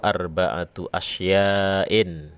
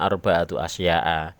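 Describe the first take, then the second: First: The last word ends with an 'in' sound. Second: The last word ends with a plain 'a' sound. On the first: The speaker calls it right. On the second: The speaker calls it wrong.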